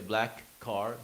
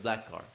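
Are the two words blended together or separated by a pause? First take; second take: separated; blended. First: There is a pause between the two words. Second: The two words run together quickly without pause. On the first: "Do you pause in the middle?"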